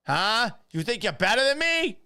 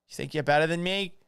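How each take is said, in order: First: High, loud Boston challenge; mock-outraged Boston tough guy, voice shooting up; Boston accent. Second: Boston challenge, pitch raised; mock-indignant Boston tough guy; Boston accent. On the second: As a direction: start squaring up in a Boston accent. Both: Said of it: "[name] doing a Boston accent".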